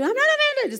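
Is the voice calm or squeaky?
squeaky. The voice is high and squeaky. The speaker is actually upset. "It's like too squeaky"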